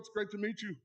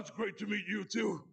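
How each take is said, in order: First: It is said in the speaker's normal voice. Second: It is said in a Marge Simpson sister voice.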